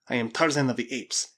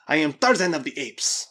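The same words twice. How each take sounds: First: Said in the usual way. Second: Loud, raised, insistent declaration; mock loud scream. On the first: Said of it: "he repeated in a loud scream". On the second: A narrator's reading. Mad Spaniard repeats his claim, a restrained scream. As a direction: proclaim it louder, pitch lifted. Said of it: "repeated in a loud scream".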